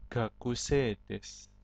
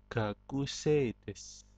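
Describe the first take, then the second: The two takes are said the same way.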